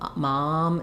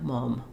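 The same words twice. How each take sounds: First: The vowel is open with unrounded lips. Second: The vowel is said with slightly rounded lips. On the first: "mom in English, you don't want any rounding" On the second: "If you're using a British accent, you're going to have some rounding there"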